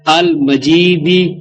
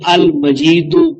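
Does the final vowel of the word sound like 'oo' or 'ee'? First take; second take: ee; oo. First: The word ends with an 'ee' vowel. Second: The word ends with an 'oo' vowel. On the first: It describes the Throne itself as glorious. "मकसूर दाल के नीचे जेर पढ़कर" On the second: It describes the Lord of the Throne as glorious. "मरफू दाल पर पेश पढ़कर"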